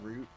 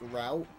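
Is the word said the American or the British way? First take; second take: British; American. First: It is said with a British pronunciation. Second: It is said with an American pronunciation. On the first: "instead of saying root" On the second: "I'll randomly just say American ways of saying English words, like route"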